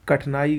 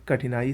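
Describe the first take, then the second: First: कठिनाई without the i, "kath-naai"; wrong pronunciation. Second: कठिनाई with "thi" sounded; correct pronunciation. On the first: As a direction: drop the middle vowel of कठिनाई. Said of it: "गलत है". (कठिनाई को "कठनाई" बोलें) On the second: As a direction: keep the middle i in कठिनाई. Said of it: "सही है". (कठिनाई में साफ़ "ठि") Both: Shown as a demonstration.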